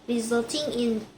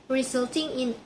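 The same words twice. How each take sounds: The two takes are said the same way.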